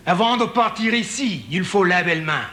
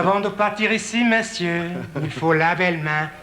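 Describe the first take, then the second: First: Lightly put-on French reading of a sign; mock French. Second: Lilting mock French with a savouring touch. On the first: Comedian reading a Paris sign in mock French. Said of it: "the French one". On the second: Comedian repeating the Paris sign, savouring the mock French. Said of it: "Isn't that pretty?".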